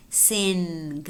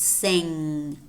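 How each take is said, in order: First: "sing" drawn out with a hard G released at the end; wrong, separate N and G. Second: "sing" ending in one smooth NG, no hard G; correct velar NG. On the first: Teacher showing the mistake, "sing" with hard final G. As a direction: finish "sing" on an audible hard "guh". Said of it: "It is not sing". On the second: Teacher giving the correct model, "sing" with velar nasal. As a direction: let "sing" fade on the nasal, G never released. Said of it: "It's sing". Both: Shown as a demonstration.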